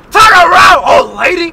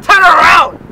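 First: Loud, high shout out the window. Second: Loud, high corrected shout. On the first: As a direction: yell it at the driver. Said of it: "I said". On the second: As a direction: yell it, just the two words. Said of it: "I didn't say that. I said". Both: Retold or imitated.

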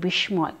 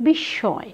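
First: বিস্ময় as bish-moy, m fully sounded; spelling pronunciation of বিস্ময়, sh followed by m; mispronounced with sounded m. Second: বিস্ময় as bish-shõy, doubled sh; correct, m silent. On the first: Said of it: "তোমরা অনেকেই ভুল উচ্চারণ করো". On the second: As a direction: say বিস্ময় with long sh and nasal vowel. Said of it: "সঠিক উচ্চারণ". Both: Shown as a demonstration.

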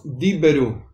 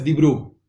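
First: "Diberu" in three syllables, di-be-ru; sounded shva in Diberu. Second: "Dibru" in two syllables, di-bru; silent shva, wrong reading. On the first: Teacher reads the word on screen, sounded shva. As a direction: say "Diberu" with an audible e after the b. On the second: Teacher shows the mistake to avoid, silent shva. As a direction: run b into r in "Dibru", no vowel between. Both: Shown as a demonstration. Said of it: "no es Dibru".

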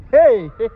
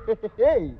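First: Laughing through a playful hey; laughing mock quote. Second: Said in the usual way. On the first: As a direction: toss off the heys with a real laugh.

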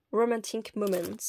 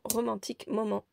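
First: Hammed-up English accent; English pronunciation put on for fun; playful English accent. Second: Said in the usual way. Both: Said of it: "avec mon superbe accent anglais".

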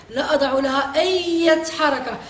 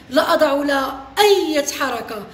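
Both takes have the same delivery.

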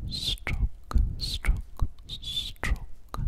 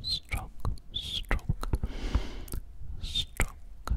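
The two takes are said the same way.

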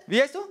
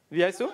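First: Pitched-up, louder demand; insistent higher repeat. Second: Said in the usual way. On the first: Real, not acted. Asks the audience member again, high and insistent. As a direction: ask again, pushing harder.

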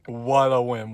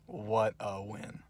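First: Said in the usual way. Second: Much softer, slow, breathy murmured "What a win."; quiet murmur. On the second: Real, not acted. Fan murmuring to himself after the win, soft and slow. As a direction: savour "What a win." under your breath. Repeated, dropped to near whisper.

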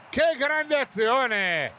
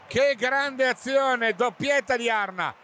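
First: Slow, high, stretched exclamation; excited. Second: Excited. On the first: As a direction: savour the great move. (esclamazione entusiasta) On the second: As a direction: repeat it, still thrilled. (esclamazione entusiasta ripetuta) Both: Real, not acted. Repeated exclamation after goal.

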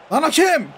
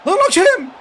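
First: Loud, annoyed call at the referee; "Lan hakem" called out loud and indignant; hey ref, come on; yelling at the ref. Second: "Lan hakem" yelled much louder and higher, "hakem" falling hard; full-volume outrage at the referee; "Lan hakem" bellowed with everything he has; furious shout at the ref. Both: Real, not acted.

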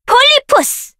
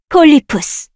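First: Much higher, ringing out; high shouted summon. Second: Said in the usual way. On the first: Acted. Summoner shouting the creature's name high.

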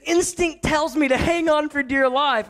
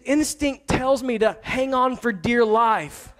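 First: Higher, girlish imitation of his daughter; mimicking his daughter. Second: Slow, deliberate quoting of the daughter; daughter's words, slowed. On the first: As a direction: echo her line in a higher little-girl voice. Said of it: "so she said". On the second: Retold or imitated. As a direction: lay out each word slowly, like quoting a child's excuse. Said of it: "She said".

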